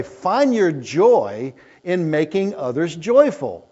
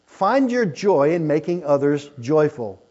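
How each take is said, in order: First: Slow quote. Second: Said in the usual way. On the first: Shown as a demonstration. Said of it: "Someone has said it this way". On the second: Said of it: "I like that".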